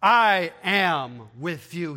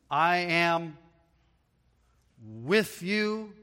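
First: Slow, louder, every word weighted; "I am with you" spaced and pressed; emphatic. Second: Said in the usual way. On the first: Shown as a demonstration. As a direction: lean on I am with you. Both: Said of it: "It's emphatic".

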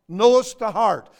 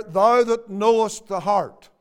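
First: "Knowest" pressed hard and louder; emphasis on knowest. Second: Said in the usual way. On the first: Shown as a demonstration. Preacher repeating the phrase to stress "Knowest". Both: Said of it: "notice the emphasis there".

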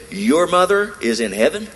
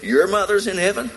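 First: High, louder, rising incredulous question; stunned retold question; shocked disbelief. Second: High, rising, louder shocked question; incredulous question pitched high; shocked disbelief. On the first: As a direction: gasp it out in astonishment. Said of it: "she was so shocked". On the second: Retold or imitated. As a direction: ask it as if you can't believe your ears. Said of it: "She said".

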